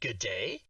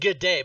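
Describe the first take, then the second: First: It ends with a rising question tune. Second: It ends with a falling statement tune.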